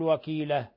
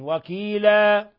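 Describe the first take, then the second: First: The final vowel is cut shorter than two beats. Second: The final vowel is held for two beats. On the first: The speaker calls it wrong. "ولا تقل وكيلة" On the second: The speaker calls it right. "وإنما حركتين وكيلا"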